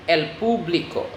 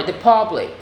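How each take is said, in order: First: "público" in Spanish, POO-blee-koh; Spanish pronunciation. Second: Said in the usual way. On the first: Shown as a demonstration. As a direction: say "el público" as Spanish, stressing "pú" and adding the "o". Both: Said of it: "just add an O".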